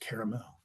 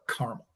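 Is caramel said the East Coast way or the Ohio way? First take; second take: East Coast; Ohio. First: It is said the East Coast way. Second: It is said the Ohio way.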